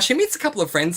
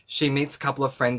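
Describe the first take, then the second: First: It is said in a lively, varied, passionate way. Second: It is said in a flat, unenthusiastic way. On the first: The reviewer genuinely loves the book. The speaker calls it right. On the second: The reviewer is not very invested in the book. The speaker calls it wrong.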